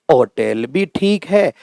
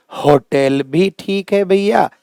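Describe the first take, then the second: First: होटल said as otel, starting on the vowel; silent H. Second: होटल with an audible H, slow and higher; H sounded. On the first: Teacher allowing both forms, silent H in होटल. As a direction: slowly drop the H from होटल. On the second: Teacher allowing both forms, H sounded in होटल. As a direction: slowly voice the H in होटल. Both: Shown as a demonstration. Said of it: "इनका जो है मानक उच्चारण".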